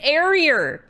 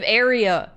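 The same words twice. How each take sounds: First: An R sound is added at the end. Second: No R sound is added at the end. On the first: The speaker calls it wrong. "She she said area" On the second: The speaker calls it right. "instead of area"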